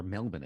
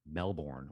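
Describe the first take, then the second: First: "Melbourne" with a reduced second syllable, MEL-bun; local pronunciation. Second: "Melbourne" with a full second syllable, MEL-born; full-vowel pronunciation. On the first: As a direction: swallow the end of "Melbourne" to "bun". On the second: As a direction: say "Melbourne" as spelled, ending like "born". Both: Shown as a demonstration. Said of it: "as some people say".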